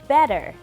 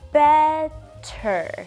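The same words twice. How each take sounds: First: Said normally with a soft D-like sound. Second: Said slowly with a clear, strong T sound. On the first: "like I would normally would, the T sound sounds more like a soft D" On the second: "if I pronounce it slowly, the t, t sound is very pronounced"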